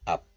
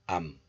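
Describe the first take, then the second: First: The syllable ends with a closed p sound. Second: The syllable ends with a nasal m sound. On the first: "This letter is pronounced as up in isolation" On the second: "the final consonant piup becomes nasalized into bium"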